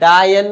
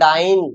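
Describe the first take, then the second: First: It is said as two syllables with a 'ya' sound. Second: It is said as one syllable with an 'ai' sound. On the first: The speaker calls it wrong. "डायन में या है" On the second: The speaker calls it right. "मैं बोल रहा हूं डाइन"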